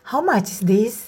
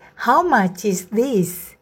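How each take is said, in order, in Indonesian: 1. Nada naik di akhir. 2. Nada turun di akhir. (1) "kita tidak menanyakan seperti ini ya" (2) "nadanya tidak naik tapi nadanya turun"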